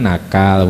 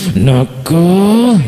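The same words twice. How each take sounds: First: It is said calmly, with a flat tone. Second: It is said angrily, with emotion.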